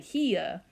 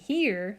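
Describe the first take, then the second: First: It is said in a Southern accent. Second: It is said in a standard accent.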